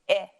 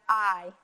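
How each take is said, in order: First: The vowel is said as a short sound. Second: The vowel is said as a long sound. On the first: "making the short vowel sound" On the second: "our vowels can also make a long sound"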